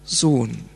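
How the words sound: The word is said in a proud, loving tone. The child is cherished and encouraged. The speaker calls it right. "sondern stolz und liebevoll"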